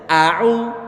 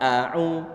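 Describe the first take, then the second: First: The 'a' is said with an overly wide mouth. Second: The 'a' is said with a normal mouth opening. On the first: The speaker calls it wrong. "Tidak boleh begini... Kelihatan lebar enggak? ... Ini kebablasan" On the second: The speaker calls it right. "Jadi fathahnya adalah fathah yang standar"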